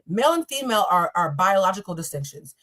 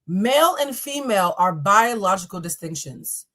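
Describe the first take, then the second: First: The sentence is spoken quickly. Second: The sentence is spoken more slowly. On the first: "makes me talk really fast" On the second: "I'm going to say it a little bit slower"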